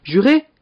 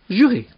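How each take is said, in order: First: JURÉ pitched high, rising as a question; high, rising "Juré?" seeking confirmation; questioning oath. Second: JURÉ high, then falling firmly as an answer; high, falling "Juré." settling it; confirming oath. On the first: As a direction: ask "Juré?" with the end lifting. Brother demands an oath. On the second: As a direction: confirm "Juré." with the end dropping. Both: Acted.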